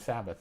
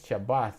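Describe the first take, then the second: First: The word begins with an s sound. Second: The word begins with an sh sound. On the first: This is the usual English name. "We call it the Sabbath" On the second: This is the original-language name. "I guess you pronounce it Shabbath"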